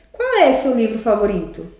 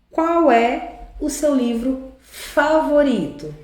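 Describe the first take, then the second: First: "Qual é seu livro favorito?" asked as one connected question; entonação de pergunta. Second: Slow, spaced-out reading of the question; leitura pausada do exemplo. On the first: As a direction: ask it in one go, stress on QUAL, falling at the end. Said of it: "a entonação de pergunta". (pergunta natural e ligada, com ênfase em "Qual") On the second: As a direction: draw out QUAL and FAVORITO. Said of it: "olha o qual aqui". (leitura lenta e pausada, palavra por palavra) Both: Shown as a demonstration.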